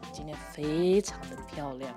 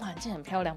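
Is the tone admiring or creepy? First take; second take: creepy; admiring. First: It sounds leering and creepy. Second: It sounds like a sincere, admiring compliment.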